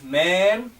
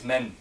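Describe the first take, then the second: First: "man" slow and open, stressed; Arabic man. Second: "men" with a short e vowel; English men. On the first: Teacher contrasts Arabic "man" with "men" for students. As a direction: stretch "man" out slowly. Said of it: "So here it is man". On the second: Teacher contrasts English "men" with Arabic "man" for students. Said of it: "and here it is men". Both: Shown as a demonstration.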